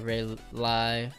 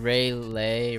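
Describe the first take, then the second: First: The second syllable rhymes with high. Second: The second syllable rhymes with day.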